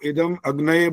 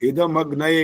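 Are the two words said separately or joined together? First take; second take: separately; joined. First: The two words are said separately. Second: The two words are joined together. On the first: The speaker calls it wrong. "वही गलतियां करते जा रहे हो, इदम अग्नये बोल रहे हो, ये नहीं बोलना होता" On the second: The speaker calls it right. "इकट्ठा बोलना होता है"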